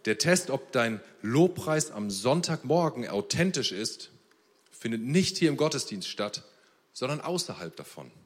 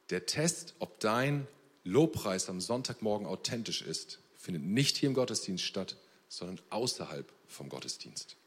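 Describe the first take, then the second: First: Deliberate quotation, slower and weighty; slow emphatic quote. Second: Said in the usual way. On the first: Shown as a demonstration. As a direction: Test and hier stressed, slow and a bit louder. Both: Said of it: "ich hab so ein Zitat gelesen".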